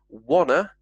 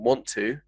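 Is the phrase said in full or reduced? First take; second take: reduced; full. First: The two words blend into one short reduced word. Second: The two words are said separately and in full. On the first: "Wanna, from want to" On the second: "from want to"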